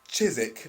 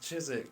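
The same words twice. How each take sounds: First: It is said in an attempted posh accent. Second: It is said in a rough, geezer-like accent. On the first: "He actually had the poshest voice ever" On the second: "I'm doing it like he was a geezer"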